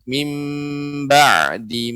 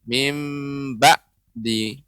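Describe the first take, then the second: First: The middle consonant lets a little air flow. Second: The middle consonant is a sudden glottal stop. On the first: The speaker calls it right. "sifatnya ain ini adalah bainiyah ya. Dia adanya sedikit aliran udara" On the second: The speaker calls it wrong. "tidak boleh ... kurang tepat karena dia seperti huruf hamzah"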